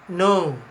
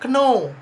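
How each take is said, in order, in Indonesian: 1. Kata "know" diawali dengan bunyi n. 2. Kata "know" diawali dengan bunyi k. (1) "the right pronunciation that we use is no" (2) "Kadang dia baca kno, but it is wrong"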